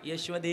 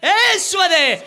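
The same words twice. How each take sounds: First: The name is said quietly and softly. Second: The name is shouted loudly and urgently. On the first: The call lacks urgency. The speaker calls it wrong. "असं नाही हळूच नाही हाक मारली" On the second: The call fits an urgent emergency. The speaker calls it right. "जसा प्रसंग असेल तसं बोलावं"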